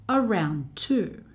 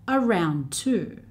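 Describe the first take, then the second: Both takes have the same delivery.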